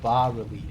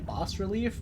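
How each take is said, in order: First: The S in the first word is silent. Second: The S in the first word is pronounced. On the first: "like the S is silent" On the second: "I always wanted to say bas relief"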